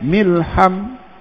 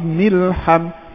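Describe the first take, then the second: No difference in how they are said.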